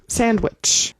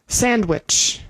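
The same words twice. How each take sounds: No difference in how they are said.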